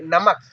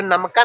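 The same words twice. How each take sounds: First: नमक short, ending on a closed k; said quickly. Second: नमका with a full "aa" on the end; wrong reading with extra vowel. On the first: Teacher correcting the reading, word said quickly. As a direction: cut नमक short with no final vowel. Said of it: "जल्दी से बोलना है". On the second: Teacher showing learners what not to read, vowel added. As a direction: add a long final vowel to नमका. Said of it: "नहीं पढ़ना है यहाँ पे". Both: Shown as a demonstration.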